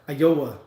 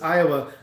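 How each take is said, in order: First: The stress falls on the second syllable. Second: The stress falls on the first syllable.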